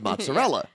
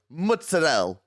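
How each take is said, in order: First: It is said with a standard Italian pronunciation. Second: It is said with an Italian-American accent. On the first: This is the actual Italian word. The speaker calls it right. "instead of" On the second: This is how New York and New Jersey Italians say it. The speaker calls it wrong. "They have these made up words that they claim are Italian"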